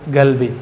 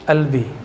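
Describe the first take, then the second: First: The first consonant is a hard g sound. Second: The first consonant is dropped, giving albi.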